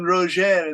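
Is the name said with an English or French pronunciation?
French. The name is said with a French pronunciation. "You call him Roger. That's the French for Roger"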